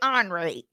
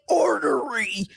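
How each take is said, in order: First: The word is said as two syllables, onry. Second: The word is said with three full syllables. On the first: "you say O N R Y" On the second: "You say ornery"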